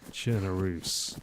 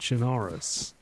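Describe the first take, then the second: First: The ending rhymes with Belarus. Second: The ending does not rhyme with Belarus. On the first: The speaker calls it right. "like Belarus" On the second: The speaker calls it wrong. "it is not Chernarus"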